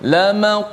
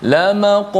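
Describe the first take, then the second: The two takes are said the same way.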